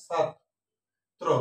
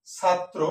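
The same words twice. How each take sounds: First: ছাত্র as 'chhat', long pause, 'tro'; syllable by syllable. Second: Said in the usual way. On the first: Shown as a demonstration. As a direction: slowly split ছাত্র, t on both sides. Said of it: "আগে তটা নিয়ে আসবো". (ছাত্... ত্রো, ধীরে ভেঙে) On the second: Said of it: "আলাদা বের করে".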